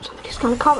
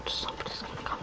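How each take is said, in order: First: Said in the usual way. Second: Very soft, voiceless whisper. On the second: Pretend. Player warns that somebody is coming, whispered. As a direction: whisper it as a hushed warning.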